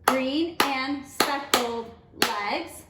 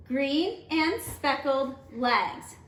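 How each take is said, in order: First: Slow, each syllable counted; teacher counting the line out; clapped out syllable by syllable. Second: Slow, syllables spaced evenly; teacher reading a haiku line; read slowly for clapping. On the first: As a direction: clap every syllable. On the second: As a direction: read it evenly, one beat each. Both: Shown as a demonstration. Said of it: "Let's count that out".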